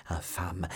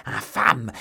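First: Low, softer hiss of an insult; first, contained burst of outrage; held-back rage. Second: Loud, furious cry; outraged yell, much louder; howled insult. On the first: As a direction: spit the insult out under the breath. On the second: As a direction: howl it in rage. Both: A narrator's reading. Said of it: "hurlait Milady".

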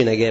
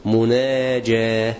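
First: The word نجاة said as the mistaken form without the opening مـ; نجاة said plainly, as a wrong example. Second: مناجاة said slowly, with a clear opening مـ and a careful ج; slow, deliberate correction; correct pronunciation. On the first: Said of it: "ما أقولش نجاة". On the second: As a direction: stretch out مناجاة so each sound lands. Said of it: "بقول مناجاة". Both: Shown as a demonstration.

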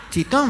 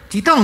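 First: High rising "¿Chitón?", not shouted; questioning echo. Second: High, loud one-word "Chitón" command; mock-shout "Chitón" to silence everyone; retold shout. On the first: Retold or imitated. Another moviegoer querying the hush, high rising "¿Chitón?". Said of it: "preguntó otro". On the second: Man silencing the cinema crowd, high shouted "Chitón". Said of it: "gritó otro tipo".

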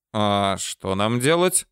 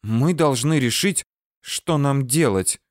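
First: ДЕЛАТЬ rising as a question; clarifying question. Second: ДЕЛАТЬ falling, as a settled point; firm statement. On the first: He asks Tatiana what they should do, clarifying question. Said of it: "уточнил я". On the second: Tatiana tells him they must decide, firm statement. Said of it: "заявила Татьяна". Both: A narrator's reading.

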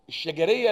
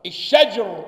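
First: الشجرية said with the jim carrying a fatha; the mistaken الشجرية with open jim; wrong vowelled form. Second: الشجر with a still jim, no vowel after it; correct sukun form. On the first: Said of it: "لا، مش الشجرية". (نطق خاطئ بفتح الجيم) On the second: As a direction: stress الشجر, closing the jim. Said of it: "بتسكين الجيم ومش بفتحها". (نطق صحيح بتسكين الجيم) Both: Shown as a demonstration.

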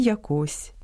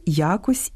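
First: ЯкО́СЬ, stress on КОСЬ; stress on last syllable. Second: Я́кось, stress on Я; stress on first syllable. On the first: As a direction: stress the final syllable of якось. (наголос на другому складі: яко́сь) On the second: (наголос на першому складі: я́кось) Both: Shown as a demonstration. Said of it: "не тільки різні наголоси".

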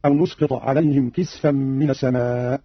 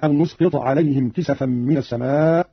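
First: كسفا as "kisfan", no vowel after the s; vowelless sin. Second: Said in the usual way. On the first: Shown as a demonstration. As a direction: slowly, close the sin in كسفا. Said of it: "قرأ قالون بسكون السين هكذا". (كسفا بسكون السين) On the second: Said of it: "قرأ قالون بسكون السين".

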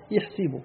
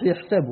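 First: يحسب said yaḥsib with an i vowel on the s; with kasra. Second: يحسب said yaḥsab with an a vowel on the s; with fatha. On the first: Teacher to students, يحسب pronounced with kasra: yaḥsib. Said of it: "بالكسر يحسب". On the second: Teacher contrasting Hafs reading, يحسب pronounced with fatha: yaḥsab. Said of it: "بالفتح يحسب". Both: Shown as a demonstration.

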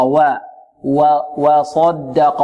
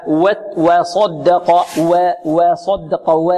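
First: "وصدق" begun on a full open "wa", not "weh"; properly light waw. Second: "وصدق" begun as "weh", the a squeezed toward e; over-thinned waw. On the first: Shown as a demonstration. Teacher correcting the exaggeration, slow open light waw. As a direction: slowly open the first vowel of "وصدق" fully. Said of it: "لا، خطأ". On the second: Retold or imitated. Teacher demonstrating an exaggeration to avoid, waw over-thinned. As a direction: overdo the lightness of the first syllable in slow "وصدق". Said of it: "المبالغة في ترقيقها فتقلل فتحتها، هكذا".

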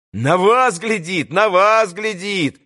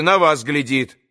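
First: Chanted, slow, drawn-out echoed call; chanted, take up the cry like a gang of boys; chanting chorus cry. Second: Said in the usual way. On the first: A narrator's reading. Boys echo that he watches Alyosha, chanting chorus cry. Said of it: "подхватили мальчики".

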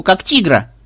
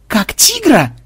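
First: Said in the usual way. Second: High-pitched incredulous question; aghast echo. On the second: A narrator's reading. Programmer hearing the team's bait plan, aghast. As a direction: throw the words back in alarmed disbelief.

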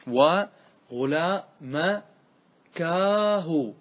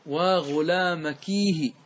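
First: Louder, drawn-out "waa ghulaa-ma-kaa-hu" for و غلا مكاه; lament with alif. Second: Slow, drawn-out demonstration of وغلامكيه; lament with ya. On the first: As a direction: spell out و غلا مكاه piece by piece, very slowly. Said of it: "لماذا صارت كا؟". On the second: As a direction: say وغلامكيه slowly as "waa ghulaamakiihi". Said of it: "فاجعل الياء بعد". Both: Shown as a demonstration.

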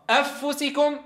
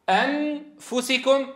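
First: "أفسكم" with the ن dropped into the ف; merged n. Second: "أنفسكم" slowly with a fully sounded ن; clear n. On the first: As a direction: swallow the ن in "أفسكم". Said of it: "هذا إدغام". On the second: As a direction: say the ن in "أنفسكم" plainly. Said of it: "هذا إظهار". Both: Shown as a demonstration.

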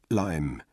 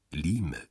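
First: Lime said the English way, rhyming with time; English pronunciation. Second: Lime said as spelt, with a long ee; Danish pronunciation. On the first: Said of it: "Ich ziehe es vor, ihn englisch auszusprechen". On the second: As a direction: say Lime like "Lee-meh", as written. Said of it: "sprach meinen Namen dänisch aus, wie man ihn schreibt". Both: A narrator's reading.

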